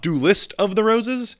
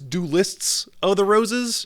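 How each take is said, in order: First: The first word ends without an s sound. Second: The first word ends with a clear s sound. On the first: The speaker calls it wrong. "not Duelist of the Roses" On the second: The speaker calls it right. "enunciate that Duelists S on the end there"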